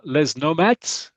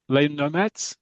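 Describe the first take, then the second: First: "Les Nomads" slowly, with Les said "lez"; tentative pronunciation. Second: "Les Nomads" with Les said "lay"; corrected French pronunciation. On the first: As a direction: sound the final s in Les of "Les Nomads". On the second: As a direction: silent s in Les of "Les Nomads", asked as a question. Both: Real, not acted. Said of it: "Yeah, Les Nomads".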